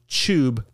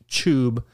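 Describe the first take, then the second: First: The word starts with a ch sound. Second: The word starts with a ch sound.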